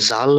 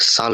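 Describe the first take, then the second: First: The word begins with a 'j' sound. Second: The word begins with an 's' sound. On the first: The speaker calls it wrong. "জাল না হইয়া" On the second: The speaker calls it right. "সাল হইতাছে"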